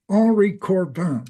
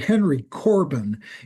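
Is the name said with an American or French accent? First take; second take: French; American. First: The name is said with a French accent. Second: The name is said with an American accent. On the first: It sounds refined to Americans. The speaker calls it right. "I say it with the French accent" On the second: It sounds like an uncultured American. The speaker calls it wrong. "they will think you're an American Philistine"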